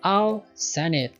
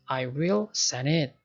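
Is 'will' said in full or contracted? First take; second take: contracted; full. First: The word will is contracted onto I. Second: The word will is said in full.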